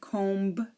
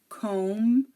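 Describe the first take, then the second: First: The final B is pronounced. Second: The final B is silent. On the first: The speaker calls it wrong. "We don't say comb" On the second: The speaker calls it right. "the B is silent"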